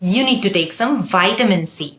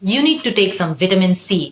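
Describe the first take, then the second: First: It is said in an American accent. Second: It is said in a British accent.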